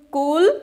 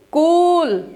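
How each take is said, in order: First: कूल said as कुल, with a short u; short vowel. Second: कूल with a long, drawn-out ū; long vowel. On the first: Teacher shows the difference between two words, short-vowel कुल in place of कूल. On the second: Teacher shows the difference between two words, long-vowel कूल. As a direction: stretch the ऊ in कूल. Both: Shown as a demonstration. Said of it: "एक difference यहाँ पे आ रहा है".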